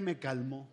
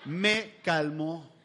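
First: Said in the usual way. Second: "Me calmó" drawn out slowly, every syllable lingered on; slow, savoring repeat. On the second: Shown as a demonstration. Telling the audience the shirt worked, in a slow drawn-out repeat. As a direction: let "Me calmó" sink in, slow and deliberate. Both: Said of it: "¿y qué creen?".

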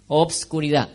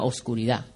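First: "Obscuridad" with the B sounded before the S; old spelling with B. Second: "oscuridad" with no B before the S; new form without B. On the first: Showing the congregation the old B spelling, B pronounced. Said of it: "Antes oscuridad se escribía O, B". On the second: Showing the congregation today's word, B dropped. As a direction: go straight from O to S in "oscuridad". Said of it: "sin la B". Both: Shown as a demonstration.

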